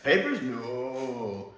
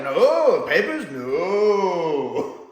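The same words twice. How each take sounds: First: Slow "Papers, no" at normal level; lighter Jamie imitation. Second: Loud, slow, drawn-out "papers, no"; imitating Jamie. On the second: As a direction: stretch "papers, no" out slowly like a Scottish lad catching on. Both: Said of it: "I love the way Frasier does that".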